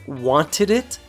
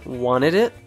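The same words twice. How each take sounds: First: The T after the N is clearly pronounced. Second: The T after the N is dropped.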